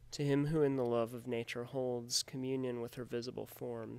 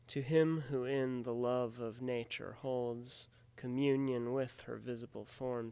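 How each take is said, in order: First: The stresses are spoken naturally, not exaggerated. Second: Every metrical stress is strongly exaggerated.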